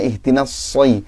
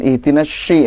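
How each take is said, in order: First: The consonant is a thick, heavy 's' sound. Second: The consonant sounds like an 'sh' sound. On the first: The speaker calls it right. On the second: The speaker calls it wrong. "sodnya masih mirip shin"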